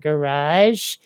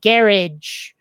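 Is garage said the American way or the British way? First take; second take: American; British. First: The word is said the American way. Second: The word is said the British way. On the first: This is how the speaker normally says it. "you mean the garage?" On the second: This is how English people say it. "apparently, garage. I never would have pronounced it that way"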